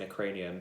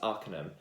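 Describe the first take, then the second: First: It sounds like 'a cranium'. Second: It sounds like 'ar-KAY-num'. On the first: The speaker calls it wrong. "I've been saying that wrong" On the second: The speaker calls it right. "but it's Arcanum"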